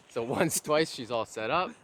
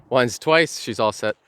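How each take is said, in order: First: Said in the usual way. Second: Loud cheerful announcement; excited. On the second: Real, not acted. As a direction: call it out proudly. Knot finished, says it loudly.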